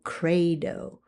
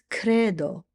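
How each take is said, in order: First: The E vowel glides into a diphthong. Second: The E vowel stays pure without gliding. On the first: The speaker calls it wrong. "you don't want to say" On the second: The speaker calls it right. "It's credo"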